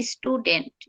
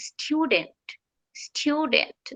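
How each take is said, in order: First: Student as "ish-tu-dent", stretched out; wrong pronunciation. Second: Higher, softer student as "styu-dent"; correct pronunciation. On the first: Teacher showing what not to say, "ish-tudent". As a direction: say student with plain oo and leading i. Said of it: "not student". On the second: Teacher modelling for learners just like that, "styu-dent". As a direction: say student with a y-glide after T. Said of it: "just like that". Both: Shown as a demonstration.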